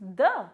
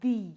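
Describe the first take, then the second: First: It is said with a short 'uh' vowel. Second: It is said with a long 'ee' vowel. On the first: The next word starts with a consonant sound. "when it comes before a consonant sound, it is pronounced the" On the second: The next word starts with a vowel sound. "When the article the comes before the vowel sound, it is pronounced the"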